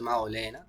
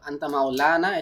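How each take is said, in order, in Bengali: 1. দীর্ঘ স্বরবর্ণটি 'e'-এর দিকে সামনে ঝোঁকা থাকে। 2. দীর্ঘ স্বরবর্ণটি একটি স্পষ্ট খোলা 'a' হিসেবে উচ্চারিত হয়। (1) "ইমালা করে পড়ছে" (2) "এটাকে আমরা স্পষ্ট করে পড়ি"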